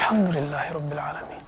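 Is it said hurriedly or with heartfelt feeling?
heartfelt. It is said slowly, with heartfelt feeling.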